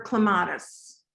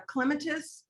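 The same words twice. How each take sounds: First: Clematis stressed on the second syllable, cluh-MAT-iss; alternative pronunciation. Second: Clematis stressed on the first syllable, CLEM-uh-tis; first pronunciation. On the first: Asking the garden expert which pronunciation, clematis as cluh-MAT-iss. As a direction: say clematis with a long, stressed middle vowel. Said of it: "I hear it both ways". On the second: Asking the garden expert which pronunciation, clematis as CLEM-uh-tis. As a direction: say clematis as CLEM-uh-tis, short unstressed middle. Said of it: "clematis or clematis". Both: Shown as a demonstration.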